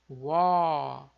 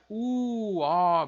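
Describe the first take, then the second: First: The two vowels glide together as one sound. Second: The two vowels are split with a break. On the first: The speaker calls it right. "é uó, uó, como um som só" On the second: The speaker calls it wrong. "não é U, ó, bem separado"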